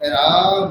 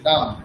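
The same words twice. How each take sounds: First: The vowel is drawn out long. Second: The vowel is said short and quickly. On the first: This is the Sanskrit way of saying it. "দীর্ঘস্বরকে দীর্ঘ করে উচ্চারণ করব" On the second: This is the everyday Bengali way of saying it. "আমরা হ্রস্ব অকারের মতোই উচ্চারণ করছি, রাম, তাড়াতাড়ি"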